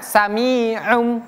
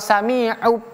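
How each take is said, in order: First: The word ends with an m sound. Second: The word ends with a b sound. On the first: The speaker calls it right. "Bacanya sami'um" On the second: The speaker calls it wrong. "atau sami'ub"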